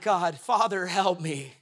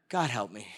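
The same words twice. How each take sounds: First: Said in the usual way. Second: Weary plea. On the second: Retold or imitated. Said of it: "Jesus at times must have been like".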